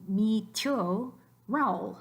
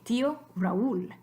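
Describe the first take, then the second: First: MI TÍO RAÚL as mi tyo rowl; merged vowels. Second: TÍO RAÚL as TÍ-o ra-ÚL; separated vowels. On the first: Teacher showing it with no accents, mi tío Raúl squashed to tyo rowl. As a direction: squash tío and Raúl into one syllable each. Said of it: "If there weren't". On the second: Teacher reading the accented example, split TÍ-o ra-ÚL. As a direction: give í and ú in tío Raúl their own beats. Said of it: "start their own new syllable". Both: Shown as a demonstration.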